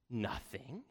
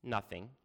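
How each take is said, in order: First: Quiet, questioning "Nothing?" with a rise; taken aback. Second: Said in the usual way. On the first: A narrator's reading. King echoing his daughter's answer, taken aback. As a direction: echo "Nothing?" back as a soft, disbelieving question. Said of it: "he exclaimed". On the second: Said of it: "she said".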